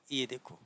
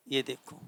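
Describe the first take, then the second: No difference in how they are said.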